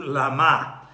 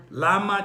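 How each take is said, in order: First: Lama with the stress moved onto MA; stress on last syllable. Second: Lama with the opening LA stressed; stress on first syllable. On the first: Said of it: "from the first syllable to the last". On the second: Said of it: "emphasis on the word lama changes". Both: Shown as a demonstration.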